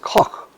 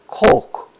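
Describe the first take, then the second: First: The name is said with a German pronunciation. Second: The name is said with an anglicized pronunciation. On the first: This is how the name is said in its original language. The speaker calls it right. "pronounces it the correct way" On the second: This is how most people say the name today. The speaker calls it wrong. "is the way it is pronounced now, but that's incorrect"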